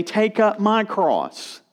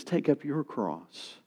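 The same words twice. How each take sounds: First: "my" slow and raised in "Take up my cross"; contrast on my. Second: "your" in "Take up your cross" slow and hushed; quietly and slowly set "your" in "Take up your cross" against "my"; contrast on your. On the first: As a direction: set "my" in "Take up my cross" against "your", slowly and high. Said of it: "he doesn't say". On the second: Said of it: "He says". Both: Shown as a demonstration.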